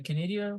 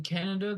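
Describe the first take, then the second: First: "Canada" said as kuh-NAY-dee-uh, stress on the second syllable; mispronounced Canada. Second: "Canada" said properly as KAN-uh-duh, stress on the first syllable; corrected Canada. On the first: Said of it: "Did you just say Canada?". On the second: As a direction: fix it: "Canada" with a short a up front. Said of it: "Damn it. Hang on". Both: Real, not acted.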